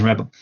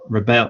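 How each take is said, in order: First: "rebel" contrasted as REB-ul, stressed at the start; stress on first syllable. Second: "rebel" contrasted as ri-BEL, stressed at the end; stress on second syllable. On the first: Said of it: "if it's a verb". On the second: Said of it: "if it's a noun, that is". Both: Shown as a demonstration.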